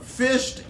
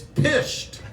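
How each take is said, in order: First: The word begins with an f sound. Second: The word begins with a p sound. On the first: The speaker calls it wrong. "you don't say uh" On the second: The speaker calls it right. "it's pished"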